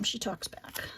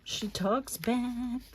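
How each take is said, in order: First: Said in the usual way. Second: Slow and drawn out; slow, emphatic retelling. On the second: Shown as a demonstration. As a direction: stretch each word slowly for effect.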